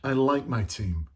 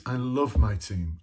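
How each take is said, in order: First: Said in the usual way. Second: "love" leaned on, slow and weighty; stress on love. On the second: Shown as a demonstration. Leadership speaker showing how much loving a team means, slow emphasis on "love". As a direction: press down hard on "love" in "I love my team". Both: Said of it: "I can't even say it without putting emphasis on it".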